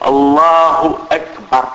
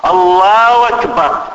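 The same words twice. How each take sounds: First: الله أكبر said slowly, the h of الله and the hamza of أكبر both clear; slow correct demo of الله أكبر, every letter sounded; correct pronunciation. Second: Mock the imam who turns أكبر into وكبر; wrong pronunciation. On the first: Shown as a demonstration. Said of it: "بدل من أن الإنسان يقول". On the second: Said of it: "تسمع يقول هكذا مباشرة".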